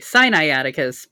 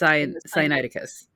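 First: The word opens sounding like 'Sinai'. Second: The word opens not sounding like 'Sinai'. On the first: The speaker calls it wrong. "I think that's why I want to say Sinai. I want to say Sinaiticus" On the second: The speaker calls it right. "but it's Sinaiticus"

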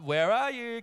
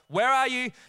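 First: It is said in a light, playful tone. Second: It is said in an anxious, urgent tone. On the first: It is still just a game. "you're kind of like, oh" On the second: The children might really be lost. "And then the tone changes"

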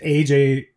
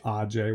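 First: The name is pronounced the English way. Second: The name is pronounced the Kirat way. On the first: "AJ with an English translation" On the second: "AJ with the Kirat. Pronunciation"

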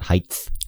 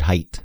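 First: The word ends with a th sound. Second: The word ends with a plain t sound. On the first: The speaker calls it wrong. "not height" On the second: The speaker calls it right. "Notice I said height"

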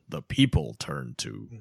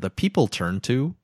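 First: It is read in a dramatic movie announcer voice. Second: It is read in an ordinary speaking voice. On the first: The speaker calls it right. "Much better" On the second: The speaker calls it wrong. "No, do it in your movie announcer voice"

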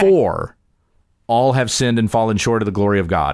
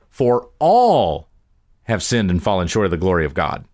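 First: The stress is on the word "For". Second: The stress is on the word "all".

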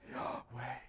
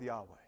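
First: It is said dramatically, with audible breathing. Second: It is said plainly, without drama.

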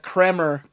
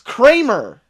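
First: The first vowel leans toward an E sound. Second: The first vowel is a plain A sound. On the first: The speaker calls it wrong. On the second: The speaker calls it right.

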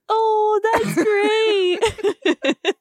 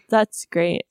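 First: It is said gushingly, as if to a pet. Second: It is said flatly, without enthusiasm.

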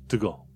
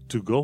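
First: The word 'to' is reduced and weak. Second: The word 'to' is fully pronounced.

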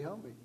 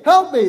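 First: It is said quietly, without much force. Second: It is said loudly, as a cry. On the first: The plea is only rehearsed in the mind. The speaker calls it wrong. "that's not going to attract any attention" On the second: The plea is meant to attract attention. The speaker calls it right. "They cry out with a loud voice"

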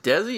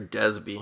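First: The name is said without a b sound. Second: The name is said with a b sound. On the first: The speaker calls it wrong. "am I saying that right?" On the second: The speaker calls it right. "I think it might be Desby"

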